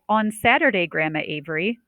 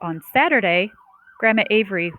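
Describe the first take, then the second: First: There is no pause after Saturday. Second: There is a short pause after Saturday. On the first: "I didn't say" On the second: "Did you hear that little pause after Saturday?"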